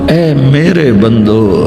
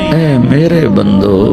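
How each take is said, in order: The two takes are said the same way.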